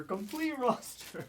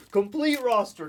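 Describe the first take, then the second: First: High, slow imitation without the shout; toned-down, pitched-up mock repeat; drawn-out mock echo. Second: Loud, high imitation outburst; hammed-up yelled imitation; mock shout. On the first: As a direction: stretch it out high at normal volume. Repeats mock rant, softer and slower. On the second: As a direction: call it out high and loud in jest. Repeats mock rant between laughs.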